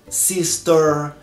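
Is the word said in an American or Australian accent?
American. It is said with an American accent. "Nos Estados Unidos, por exemplo, a letra ER, eles falam"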